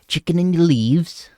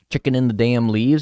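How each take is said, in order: First: It is said in a Scouse accent. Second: It is said in the speaker's normal accent.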